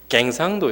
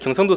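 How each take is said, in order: First: The first syllable has a regional 'ae' vowel. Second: The first syllable has the standard 'yeo' vowel. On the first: "경상도 사람이 여 발음이 잘 안 돼요" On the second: "경상도가 아니라"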